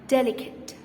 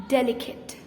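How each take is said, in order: First: The final e is silent in the last syllable. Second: The final e is silent in the last syllable.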